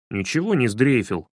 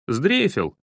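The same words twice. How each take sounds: First: Sulky, mumbled-style denial; grumbling. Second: Short teasing jab; mocking. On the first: Shamed boy denies being scared, grumbling. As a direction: grumble back defensively, mildly. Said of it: "пробурчал Славка". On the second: Boy dares his hesitant friend, mocking. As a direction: taunt him as a coward, lightly. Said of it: "насмешливо произнёс Денис". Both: A narrator's reading.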